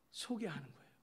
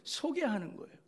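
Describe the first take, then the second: First: "소개하는" said softly, falling away at the end; hushed closing statement; soft falling close. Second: "소개하는" pitched high and pressed; higher, emphatic restatement; raised emphatic close. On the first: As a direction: let "소개하는 거예요" sink quietly. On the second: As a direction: lift "소개하는 거예요" high with conviction. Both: Shown as a demonstration.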